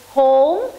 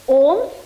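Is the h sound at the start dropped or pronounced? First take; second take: pronounced; dropped. First: The word starts with a clear h sound. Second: The word starts without an h sound. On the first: The speaker calls it right. "H must be pronounced in totality" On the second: The speaker calls it wrong. "pronounce it as om, which is wrong"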